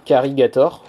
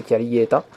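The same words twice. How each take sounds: First: Carigator said the English way, ending in -gator; English pronunciation. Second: Caligaeta with a light Japanese accent, ending in an open -ta. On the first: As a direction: pronounce Carigator as in proper English. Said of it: "si on le met en bon anglais". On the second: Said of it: "Avec l'accent japonais". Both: Shown as a demonstration.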